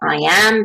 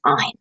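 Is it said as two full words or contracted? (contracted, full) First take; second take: full; contracted. First: It is said as two separate full words. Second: It is said as one contracted syllable. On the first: "I am becomes I'm" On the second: "you can use a contraction"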